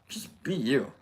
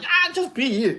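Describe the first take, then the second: First: It is said plainly and sincerely. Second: It is said in a mocking, cheesy way.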